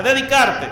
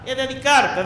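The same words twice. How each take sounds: First: Dedicarte repeated, louder and falling; stress on dedicarte. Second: Said in the usual way. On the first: Shown as a demonstration. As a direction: hit dedicarte harder the second time. (dedicarte, repetido con más fuerza)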